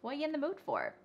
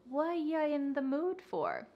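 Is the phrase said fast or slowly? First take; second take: fast; slowly. First: The phrase is said very fast. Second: The phrase is said slowly. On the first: "say this with me really fast" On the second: "we can say it like that to practice"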